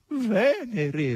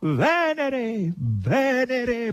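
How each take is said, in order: First: High, falling whine; plaintive whimper; plaintive boar. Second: Loud, high and victorious; victorious cry; triumphant proclamation. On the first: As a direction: moan it pitifully. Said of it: "rispose lamentosamente il verro". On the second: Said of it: "proclamò vittoriosamente Natascia". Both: A narrator's reading.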